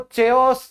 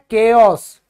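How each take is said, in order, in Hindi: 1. यह शब्द 'ch' ध्वनि से शुरू होता है। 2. यह शब्द 'k' ध्वनि से शुरू होता है। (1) "कई बच्चे इसको चेयोस चायोस चायोस करते रहते हैं" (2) "ये होता है केओस, एच साइलेंट"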